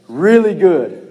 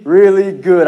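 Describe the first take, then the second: First: "Really" drawn out slowly, falling; slow emphatic really good. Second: "really" leaned on with a lift; really stressed. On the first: Preacher settling on the phrase, stretching really good slowly. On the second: Preacher straining for a bigger word, leaning on really. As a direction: push "really" hard, then "good". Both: Shown as a demonstration. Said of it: "I need another word".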